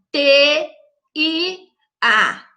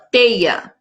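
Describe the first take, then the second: First: Teia split into separate letters T, I, A; wrong split. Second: Teia said as one word, the vowels kept together; right split. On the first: Teacher showing children the wrong split of teia. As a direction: spell out T, I, A one by one, the wrong way. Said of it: "Tá errado, não é assim". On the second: Teacher showing children the correct split of teia. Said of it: "elas ficam juntinhas na mesma sílaba". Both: Shown as a demonstration.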